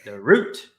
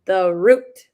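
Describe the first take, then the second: First: The root echoed low and loud on "root"; stress on root. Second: The root, "root" louder and lifted; stress on root. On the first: Host echoing the key word back, stress on root. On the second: Coach asked to repeat the key word, stress on root. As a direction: hit "root" firmly. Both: Shown as a demonstration. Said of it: "Say that, say that one more time".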